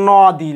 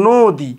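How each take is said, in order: First: নদী with open first vowel, "naw-di"; as written. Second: নদী with closed, rounded "o", "no-di"; as pronounced. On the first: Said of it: "লেখার সময় আমরা নদী লিখি". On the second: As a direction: say নদী as "nodi", drawing out the o. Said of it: "উচ্চারণের সময় আমরা কি বলি?". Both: Shown as a demonstration.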